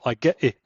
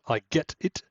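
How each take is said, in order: First: The T in 'get' becomes a glottal stop. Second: The T in 'get' is fully released. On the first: "but I get it" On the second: "so not I get it"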